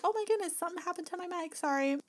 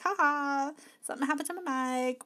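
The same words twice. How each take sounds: First: Mock embarrassed apology. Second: Said in the usual way. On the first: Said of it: "I was like". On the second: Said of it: "just comment to those people like".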